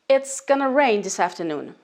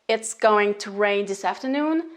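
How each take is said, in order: First: Going to is reduced to one word, gonna. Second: Going to is said in full as two words.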